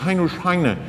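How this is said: The name is said with French pronunciation. The name has been absorbed into the culture.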